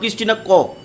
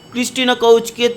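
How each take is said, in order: First: The surname has an 'o' vowel and ends 'k'. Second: The surname has an 'ow' vowel and ends 'ch'.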